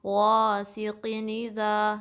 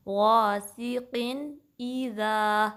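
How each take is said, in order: First: غاسقٍ اذا run together as qi-ni-za; wrong demo, n of غاسقٍ linked straight into اذا; merged hamza. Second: غاسقٍ اذا very slow, break before the i; separate hamza. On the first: Teacher showing the mistake, merged غاسقٍ اذا. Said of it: "ایسے نہیں پڑھنا". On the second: Teacher correcting the merge, separated غاسقٍ اذا. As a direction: finish clear n, then start a sharp fresh ee in اذا. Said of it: "الگ سی ای کی sound". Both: Shown as a demonstration.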